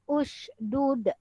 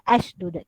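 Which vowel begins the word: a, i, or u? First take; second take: u; a. First: The word begins with a u vowel. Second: The word begins with an a vowel. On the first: The speaker calls it right. "hamzah wasal ini pun berbaris hadapan" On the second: The speaker calls it wrong. "Kita tidak boleh baca ashdud"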